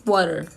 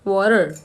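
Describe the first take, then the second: First: The t sounds like a d. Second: The same.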